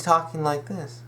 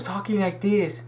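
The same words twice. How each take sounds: First: Said in the usual way. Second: Lightly imitated Chinese accent, higher; hint at a stereotyped Chinese accent; stereotypical Chinese accent. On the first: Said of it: "accent drop". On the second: Shown as a demonstration. Fan demonstrating Mei Ling's old voice, mock Chinese accent. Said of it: "really stereotypical Chinese accent".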